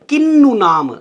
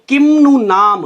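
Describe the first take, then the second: First: The nasal before 'nu' is an n sound. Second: The nasal before 'nu' is a half m sound. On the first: "उसी वर्ग के अंतिम अक्षर में अनुस्वार बदल जाता है" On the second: "आधे म का उच्चारण किया जाता है"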